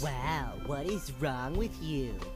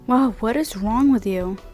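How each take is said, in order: First: It is said in a nasal, mocking voice. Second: It is said in a normal voice.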